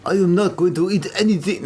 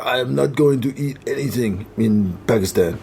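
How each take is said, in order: First: Hammed-up mock French accent; teasing caricature of a French accent; exaggerated French accent. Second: Slightly lower, measured mock French accent; French-accented English, lightly done. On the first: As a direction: lay the French accent on thick. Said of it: "No, it's more like". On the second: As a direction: imitate a French colleague refusing. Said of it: "if I do the accent".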